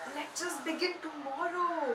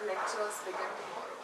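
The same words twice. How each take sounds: First: The voice sounds astonished and surprised. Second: The voice sounds low and disappointed. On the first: The news is unexpected. "If it's a surprise and it's like" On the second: The news is unwelcome. "or a sad tone"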